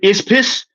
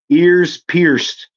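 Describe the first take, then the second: First: The words are slurred together into one mumble. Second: The words are spoken clearly and fully.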